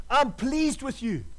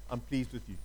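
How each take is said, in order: First: Slow and a little higher, each word spaced out; slow, emphatic. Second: Much softer and lower, almost hushed; hushed, tender. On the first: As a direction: draw it out slowly so it sinks in. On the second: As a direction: say it softly, lower, like a father close by. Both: Shown as a demonstration. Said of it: "God is saying to you today".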